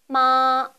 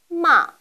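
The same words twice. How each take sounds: First: The pitch stays high and level throughout. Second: The pitch falls sharply from high to low. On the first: "처음부터 끝까지 높은 음을 유지합니다" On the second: "가장 높은 음에서 가장 낮은 음까지 떨어지는 음입니다"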